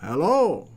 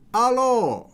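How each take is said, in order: First: Said in the usual way. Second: "Hello" said as "allo", with no h and a higher pitch; playful French greeting to a viewer in France; French-style hello. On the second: Pretend.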